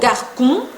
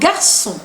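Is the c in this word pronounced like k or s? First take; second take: k; s. First: The c is pronounced as a hard k. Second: The c is pronounced as an s. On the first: The speaker calls it wrong. "Yo no digo garçon" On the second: The speaker calls it right. "Pronuncio la C cedilla como si fuera una S"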